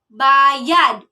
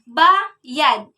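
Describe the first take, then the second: First: The stress is on the last syllable. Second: The stress is on the first syllable. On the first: It means paid. "The stress here is found the last syllable of the word" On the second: It means pay. "The stress here is found the first syllable of the word"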